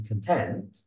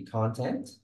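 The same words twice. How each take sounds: First: Con-TENT, second syllable stressed; "content" stressed on its back syllable, meaning happy. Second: CON-tent, first syllable stressed; "content" stressed on its front syllable, as the noun. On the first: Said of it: "stress in the second syllable". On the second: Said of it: "the first syllable". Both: Shown as a demonstration.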